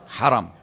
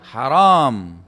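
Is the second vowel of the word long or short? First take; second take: short; long. First: The second vowel is short. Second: The second vowel is long. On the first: The place is honored or sanctified. The speaker calls it right. "Dibaca langsung ya" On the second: Something is forbidden. The speaker calls it wrong. "Jangan Anda bilang haram. Karena kalau ditambah alif"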